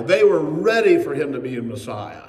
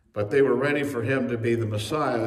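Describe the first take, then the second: First: "ready" punched out loud; emphatic, louder "ready"; stress on READY. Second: Said in the usual way. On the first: Real, not acted. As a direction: hit "ready" hard, then ease off. First take, stressing their readiness.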